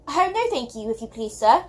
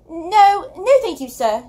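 First: Lightly voiced shy girl faltering over Oh, no, thank you; stammering. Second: Higher, louder breathless refusal; gasped. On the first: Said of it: "Sophie stammered". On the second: Acted. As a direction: blurt out no, thank you as if fleeing in panic. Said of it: "she gasped and fled away".

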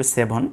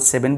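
First: সেভন with second vowel as "o", "se-bhon"; সেভন ending in a rounded "-bhon"; careful corrected pronunciation. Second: Said in the usual way. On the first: Shown as a demonstration. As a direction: say সেভন as se-bhon, not se-ven. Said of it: "উচ্চারণ সঠিক হবে সেভন". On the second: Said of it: "আমরা সাধারণত সেভেন বলি".

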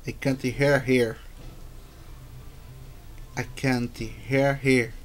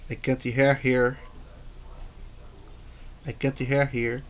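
Both takes have the same delivery.

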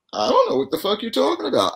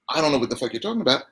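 First: Put-on high, quick, wide-eyed innocent kid; really innocent. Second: Understated retold aggression, very fast; mildly aggressive. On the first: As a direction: play the innocent, pitched way up. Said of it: "I mean, really innocent". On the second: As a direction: toss it off quickly with a touch of aggression. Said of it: "it was aggressive".

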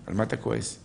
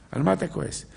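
First: Said in the usual way. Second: Same question lifted higher; raised rhetorical repeat. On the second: Shown as a demonstration. Preacher pressing the congregation, raised and insistent. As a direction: press the listener, pitch up.

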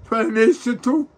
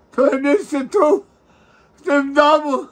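First: High, slow wail on tu; high keening sob; sobbing. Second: Even higher, louder, very slow wail; high loud keening cry; wailing sob. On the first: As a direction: draw it out in a crying wail. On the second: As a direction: let the sob break out fully. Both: Real, not acted. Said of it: "nie płacz mi przy mnie".

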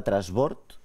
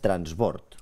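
First: Said in the usual way. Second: "transbord" with an N before the S; N pronounced. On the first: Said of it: "En lloc de trasbord, tu diries". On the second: Shown as a demonstration. Host checking the contestant's correction, "transbord" with the N sounded. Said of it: "tu diries transbord".

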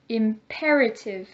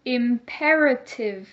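First: Said in the usual way. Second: Slow, syllable by syllable "Imperative"; choral repeat. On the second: Shown as a demonstration. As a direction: say it slowly for the class to copy. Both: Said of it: "Let's say it together".

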